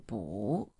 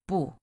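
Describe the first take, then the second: First: The pitch rises on the syllable. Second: The pitch falls on the syllable. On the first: "turn the 不 into 不 going up" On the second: "because 不 is a falling tone"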